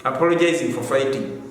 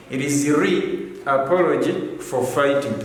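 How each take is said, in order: First: Said in the usual way. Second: "re apology" leaned on as the right form; correct form, stressed. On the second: Shown as a demonstration.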